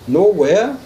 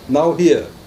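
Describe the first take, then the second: First: It is split as 'no' plus 'where'. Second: It is split as 'now' plus 'here'. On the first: Being in no place at all. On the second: Being present in this moment.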